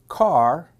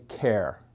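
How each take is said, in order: First: It starts with a k sound, rhyming with car. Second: It starts with a k sound, rhyming with care. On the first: "some people pronounce it car" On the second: "some people say care"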